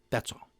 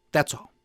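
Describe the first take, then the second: First: That's all, dropped to almost nothing; muttered afterthought, very soft; much softer echo. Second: Said in the usual way. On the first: Real, not acted. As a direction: let the repeat die away. Repeats closing remark, fading.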